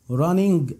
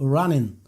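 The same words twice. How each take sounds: First: The ending is said with a hard g sound. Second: The ending is nasal with no hard g sound. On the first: The speaker calls it wrong. "غلط" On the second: The speaker calls it right. "بقول running"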